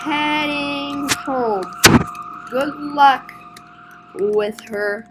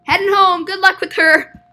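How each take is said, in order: First: Slow, stretched-out farewell; slow word by word. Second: Higher, loud, quick send-off; called farewell. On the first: Leaving the officer with the customer, slowly. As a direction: draw out the words with pauses. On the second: Leaving the officer with the customer, called out loudly. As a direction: call it out in one run. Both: Acted.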